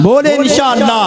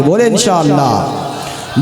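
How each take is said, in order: First: High-pitched shouted prompt to the crowd; insistent, raised-pitch congregational call; rousing call. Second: Slow call for the crowd to repeat; slow congregational prompt at usual pitch; drawn-out prompt. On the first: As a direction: call it out high to rouse a response. Repeats call for louder response. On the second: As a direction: stretch the words out to cue the crowd. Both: Real, not acted.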